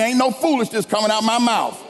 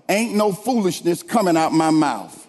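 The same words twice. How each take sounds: First: Like you mean it. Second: Said in the usual way. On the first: Shown as a demonstration. Preacher urging the congregation to repeat it, meaning it. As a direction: declare it with conviction. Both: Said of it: "say it like you mean it".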